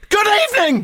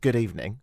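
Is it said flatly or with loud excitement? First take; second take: excitedly; flatly. First: It is said loudly and excitedly. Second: It is said plainly and flatly.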